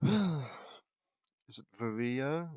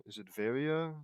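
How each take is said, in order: First: Varia as "vuh-REE-uh"; drawn-out "vuh-REE-uh" for Varia; stress on second syllable. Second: Varia as "VAIR-ee-uh"; stress on first syllable. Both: Real, not acted. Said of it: "Who cares?".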